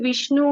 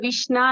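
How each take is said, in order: First: The word ends with a 'u' vowel. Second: The word ends with an 'a' vowel. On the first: The speaker calls it right. "ఇప్పుడు విష్ణు ఉందనుకోండి" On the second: The speaker calls it wrong. "వాళ్ళు విష్ణ అని అంటారు. అలాంటిది తప్పు చేస్తారు"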